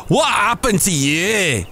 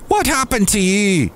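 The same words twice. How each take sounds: First: High, slow Scottish bartender; put-on Scottish voice, pitched up; Scottish accent. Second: High-pitched, shaky attempt at Irish; Irish bartender, badly attempted; attempted Irish accent. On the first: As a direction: stretch it out in a high Scottish brogue. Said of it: "I wanna go Scottish". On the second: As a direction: try an Irish brogue, pitched up. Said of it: "I can't do an Irish accent right".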